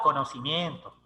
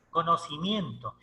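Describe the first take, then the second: First: Said in the usual way. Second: "Conocimiento" repeated slowly, each syllable weighted; slow emphatic repeat. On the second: Shown as a demonstration. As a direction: drive home "Conocimiento" by slowing down. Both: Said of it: "¿Y luego qué te da?".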